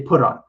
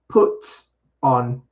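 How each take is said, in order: First: The T sounds like a light D. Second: The T is a strong, crisp T sound. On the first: "American English... It's going to sound like a light D sound" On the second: "a British speaker might enunciate a little more the T sound... they'll emphasize the strong T"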